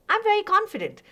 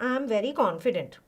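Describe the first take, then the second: First: It is said firmly, with a steady, assured delivery. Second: It is said hesitantly, with a weak, unsure delivery. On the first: The speaker is believable. The speaker calls it right. "are you going to believe that? Definitely" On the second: The speaker does not believe the claim. The speaker calls it wrong. "Am I looking confident? Definitely not"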